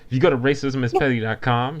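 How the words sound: It sounds firm and confident. The speaker calls it right.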